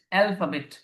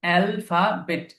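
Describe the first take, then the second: First: Said in the usual way. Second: alphabet slowly, syllable by syllable: al, fa, bet; broken into syllables. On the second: Shown as a demonstration. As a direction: stretch alphabet into three separate beats. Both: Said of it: "খেয়াল রাখবেন".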